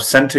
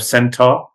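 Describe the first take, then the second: First: Said in the usual way. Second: "centaur" for centre, ending in a full "ah"; regional English pronunciation. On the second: Shown as a demonstration. Comparing ways England says centre, "centaur" with open ending. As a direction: open the end of "centaur" into "tah". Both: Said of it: "all of these are in England".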